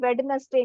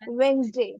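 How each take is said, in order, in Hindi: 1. यह तीन शब्दांशों में बोला जाता है, Wed-nes-day। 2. यह दो शब्दांशों में बोला जाता है, Wens-day। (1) "वेडनेसडे नहीं होता गाइस" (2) "इट इज वेंसडे"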